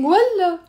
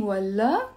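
First: والله high and loud, falling; scornful refusal. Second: والله in usual pitch, rising at the end; questioning والله. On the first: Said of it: "I'm saying". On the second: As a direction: ask والله as "really?". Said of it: "I'm not saying". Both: Shown as a demonstration.

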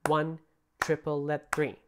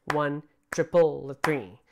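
First: "triple, let three" counted evenly, syllables spaced; even spoken triplet. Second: "triple" punched loud, "let three" rushed after; syncopated wrong count; uneven syncopated count. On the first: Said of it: "notice how they're spaced out perfectly evenly". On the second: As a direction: hit "triple" hard and clip the rest. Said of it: "That's a syncopation that I just sang". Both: Shown as a demonstration.

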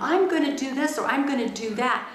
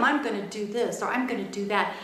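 First: Put-on "I'm gonna do this or I'm gonna do that" louder and higher, like a kid's threat; retold childish vow of payback; defiant to mom. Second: Said in the usual way. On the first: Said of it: "I would even say to my mom". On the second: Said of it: "I used to think".

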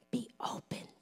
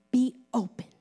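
First: Hushed, whispered command. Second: Said in the usual way. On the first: Acted. Repeats the command in a hush.

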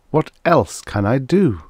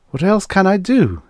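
First: Slow, raised, weighing each word in "What else can I do"; resigned self-questioning. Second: High-pitched, exasperated plea; dismayed self-questioning. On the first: Man asking himself the same question later, resigned. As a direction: drag out the question, less frantic. Asks himself again, slower. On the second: Man asking himself what choice he has, dismayed. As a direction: ask it high, falling away on DO. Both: A narrator's reading.

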